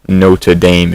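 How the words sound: It is said with an American pronunciation.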